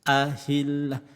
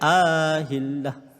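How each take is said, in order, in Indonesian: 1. Vokal pembuka dibaca pendek. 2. Vokal pembuka dibaca panjang. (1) "kena baca pendek je lah" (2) "jangan baca ahillah. Walaupun sedap bunyi, tapi salah"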